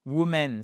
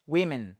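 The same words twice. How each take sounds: First: "woman" given as the wrong plural; teacher showing the wrong plural; wrong form. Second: "women" with "wi" first syllable; teacher correcting to women; right form. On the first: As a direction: say "woman" plainly as the mistake. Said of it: "c'est pas". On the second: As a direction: say "women" clearly as WI-min. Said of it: "Attention, c'est pas". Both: Shown as a demonstration.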